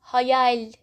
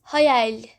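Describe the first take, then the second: No difference in how they are said.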